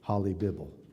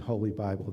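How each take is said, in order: First: The first word has a short o vowel. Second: The first word has a long o vowel. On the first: The speaker calls it wrong. "they would say Holly Bible" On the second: The speaker calls it right. "instead of saying Holy Bible"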